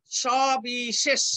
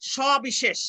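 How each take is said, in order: First: Slow সবিশেষ, every sibilant a "sh"; all sibilants as sh. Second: সবিশেষ in one piece, every sibilant a "sh"; all sibilants as sh. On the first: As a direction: stretch সবিশেষ syllable by syllable. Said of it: "তিনটাই তালব্য স এর উচ্চারণ". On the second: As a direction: say সবিশেষ as sho-bi-shesh, unbroken. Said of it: "দেখো". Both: Shown as a demonstration.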